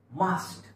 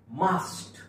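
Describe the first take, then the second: No difference in how they are said.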